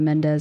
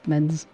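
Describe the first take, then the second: First: The name is said with two syllables. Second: The name is said with one syllable. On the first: The speaker calls it wrong. "It's not Mendez" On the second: The speaker calls it right. "it's men's or something like that"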